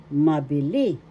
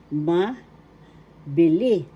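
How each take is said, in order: First: "Mabili" in one piece, punching the final "li"; stress on third syllable. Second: "mabili" slowly, pause after "ma", then "bili"; slow, split word. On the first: Teacher modelling mabili's accent, stress on third syllable. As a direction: join up "Mabili", lifting the last syllable. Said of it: "The accent is in the third syllable". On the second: Teacher introducing mabili to learners, slow and split. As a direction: break "mabili" into "ma" and a louder "bili". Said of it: "third syllable li". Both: Shown as a demonstration.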